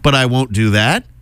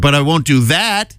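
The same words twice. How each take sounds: First: It is said as a rising question. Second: It is said as a forceful exclamation.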